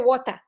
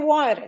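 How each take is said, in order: First: Water is said with a British accent. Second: Water is said with an American accent.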